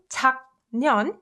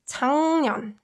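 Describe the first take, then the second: First: The first syllable ends in a hard k. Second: The first syllable ends in an ng sound. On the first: "rather than enunciating 작년" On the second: "you can instead say 작년"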